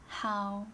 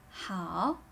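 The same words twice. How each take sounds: First: It is said without any tone contour. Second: The pitch dips down and then rises. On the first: "The pronunciation without the tone is how" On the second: "Make it a third tone"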